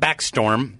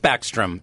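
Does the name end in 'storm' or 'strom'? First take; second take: storm; strom. First: The name ends with the word 'storm'. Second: The name ends with the sounds 'strom'. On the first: The speaker calls it wrong. "not Backstorm. There's no storm involved" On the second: The speaker calls it right. "it is Backstrom"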